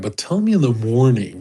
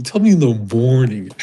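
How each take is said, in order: First: Said in the usual way. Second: Cold dismissive line repeated; a hint of callous boss; callous drawl. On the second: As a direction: throw it away coldly. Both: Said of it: "I used to talk like that".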